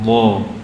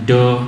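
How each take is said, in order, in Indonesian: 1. Konsonan ini bunyi emfatik yang berat. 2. Konsonan ini terdengar seperti d biasa. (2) "atau seperti dal, ... seperti dal tapi bunyi o. Ini harus kita hindari"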